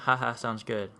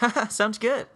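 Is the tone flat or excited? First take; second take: flat; excited. First: It is said in a flat, plain tone. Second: It is said in an excited, upbeat tone.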